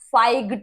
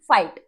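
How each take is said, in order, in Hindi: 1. अंतिम t से पहले g की आवाज़ बोली जाती है। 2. स्वर सीधे अंतिम t में जाता है। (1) "फाइग्ट नहीं बोलते" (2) "फाइट बोल रहे हैं इसे"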